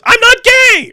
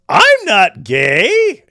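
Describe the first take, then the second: First: The phrase is shouted loudly. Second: The phrase is said at normal volume. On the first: "He shouts it like that" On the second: "he says it like that"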